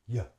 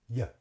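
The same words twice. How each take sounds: Both takes have the same delivery.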